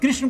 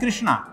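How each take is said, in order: First: The name ends without a final long vowel. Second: The name ends with a long 'aa' vowel. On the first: The speaker calls it right. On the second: The speaker calls it wrong.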